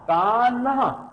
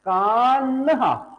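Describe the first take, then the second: Both takes have the same delivery.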